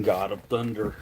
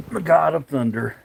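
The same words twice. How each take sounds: First: Said in the usual way. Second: The God of Thunder announced higher and louder, like a herald; mock-epic billing for The God of Thunder; grand title. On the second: Shown as a demonstration. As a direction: give The God of Thunder a hammed-up announcer lift. Repeats the title for effect.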